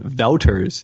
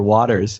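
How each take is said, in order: First: The first vowel sounds like in 'out'. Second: The first vowel sounds like in 'water'. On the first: This is how the name is said in its home country. The speaker calls it right. "her name was actually pronounced Ann Wouters" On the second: This is how the name is said in the US. The speaker calls it wrong. "everyone in the U S automatically called her Waters"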